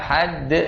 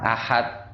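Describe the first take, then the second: First: The final d ends with a slight echoing bounce. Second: The final d stops flat without any bounce. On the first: The speaker calls it right. "yang harusnya ahad" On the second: The speaker calls it wrong. "jadi ahad"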